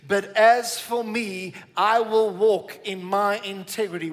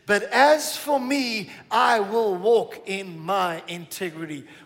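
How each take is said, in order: First: It is said calmly with ordinary energy. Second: It is said with more passion and energy.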